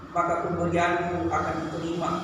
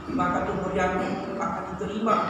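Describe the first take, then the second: The two takes are said the same way.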